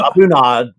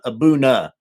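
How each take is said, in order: First: The word ends with an audible D sound. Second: The word ends on a vowel, no D sound. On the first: The speaker calls it wrong. "I think we called it" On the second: The speaker calls it right. "like the D and the H are silent"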